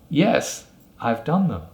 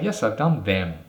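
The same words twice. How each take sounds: First: The word them is said in a weak form. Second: The word them is said fully and clearly. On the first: The speaker calls it right. "I said them, the weak form" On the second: The speaker calls it wrong. "I didn't say, ... Them is the strong form"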